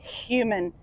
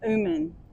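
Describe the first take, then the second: First: The h sound at the start is pronounced. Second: The h sound at the start is dropped. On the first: The speaker calls it right. "It's like an H in human. You can say human" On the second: The speaker calls it wrong. "It's not like herb, like herb. It's not human"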